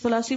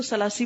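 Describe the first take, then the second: First: ثلاثی with a th sound at the start; careful Arabic ثلاثی with th; correct Arabic pronunciation. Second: ثلاثی said with a plain s sound, sulasi; casual Urdu ثلاثی with s; common pronunciation. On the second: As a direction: say ثلاثی the everyday way, starting with s. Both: Shown as a demonstration. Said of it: "ثلاثی بولے زیادہ بہتر ہے".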